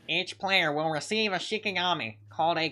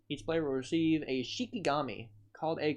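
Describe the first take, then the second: First: It is read in a put-on character voice. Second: It is read in a plain, normal voice.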